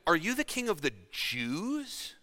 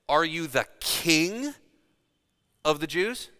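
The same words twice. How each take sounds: First: The stress is on the word Jews. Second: The stress is on the word king. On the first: It asks whether the rule covers only one people. "Calling into question whether or not he was trying to usurp all of Rome or only one locale" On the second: It doubts the claim to be a king. "Calling into question whether he actually called himself a king"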